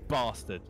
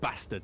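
First: It is said in a southern English accent. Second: It is said in a northern English accent.

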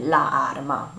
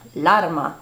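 First: The two words are said with separate vowels. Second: The two words merge into one linked word. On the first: The speaker calls it wrong. "nem la arma, az túl nehéz" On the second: The speaker calls it right.

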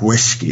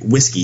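First: The word is slurred, leaning hard on 'whisk'. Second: The word is said plainly and evenly.

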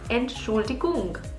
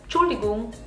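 First: The whole word is said with every syllable. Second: The first part of the word is dropped. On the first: "the word Entschuldigung, excuse me, is Entschuldigung" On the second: "people in markets or buses saying just Entschuldigung"

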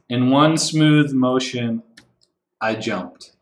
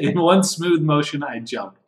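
First: The line is read slowly and drawn out. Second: The line is read quickly and crisply.

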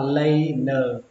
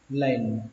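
First: It is said slowly with an extra final vowel. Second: It is said quickly as a single syllable. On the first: "Phân tích cái từ này ra thì nó là laner" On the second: "khi đọc nhanh thì nó nghe như thế này"

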